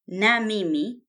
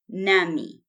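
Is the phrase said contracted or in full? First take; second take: full; contracted. First: It is said as two full words. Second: It is said as one contracted word. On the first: "na mimi becomes nami" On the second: "na mimi becomes nami"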